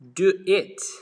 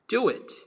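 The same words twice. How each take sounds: First: The two words are said without a linking sound. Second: An extra glide sound links the two words. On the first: The speaker calls it wrong. "instead of saying" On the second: The speaker calls it right. "you gotta say"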